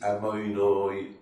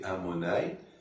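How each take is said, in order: First: The vowels are rounded oi diphthongs. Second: The vowels are plain o and a. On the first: "eux ils disent" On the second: "nous on dit"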